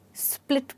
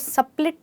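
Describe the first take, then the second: First: The s and p run together without a vowel. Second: An extra vowel separates the s and p. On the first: The speaker calls it right. "स्प्लिट बोलेंगे" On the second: The speaker calls it wrong. "इसको सप्लिट नहीं"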